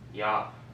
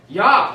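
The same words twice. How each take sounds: First: It is said quietly. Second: It is said loudly.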